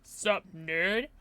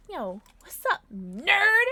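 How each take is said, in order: First: Said in the usual way. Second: "nerd" jumps up high and loud; teasing hail. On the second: Real, not acted. Streamer greeting a viewer as "nerd", playful loud tease. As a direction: punch "nerd" with a high rising lilt.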